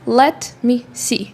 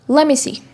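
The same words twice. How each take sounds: First: The words are said separately and clearly. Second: The words run together very closely. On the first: "Look in any book and you're gonna see the phrase" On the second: "Native speakers says like this"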